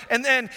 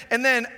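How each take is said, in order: Both takes have the same delivery.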